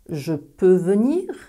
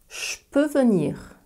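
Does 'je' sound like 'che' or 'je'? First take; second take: je; che. First: The word je keeps its voiced j sound. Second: The word je sounds like che.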